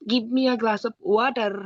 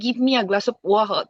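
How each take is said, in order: First: It has an Indian accent with a heavy r. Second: It has a British accent without the r sound. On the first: "ইন্ডিয়ানরা যেমন বলে" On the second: "ব্রিটিশরা হচ্ছে আর বলে না"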